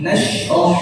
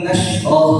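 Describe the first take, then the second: First: "nashrah" with the shin pronounced correctly; correct pronunciation. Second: "nashrah" with the shin pronounced wrongly; "nashrah" with a mistaken shin; wrong pronunciation. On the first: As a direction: say "nashrah" the right way. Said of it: "penyebutannya beda". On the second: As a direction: say "nashrah" the way it should not be said. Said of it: "penyebutannya beda, bukan nashrah". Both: Shown as a demonstration.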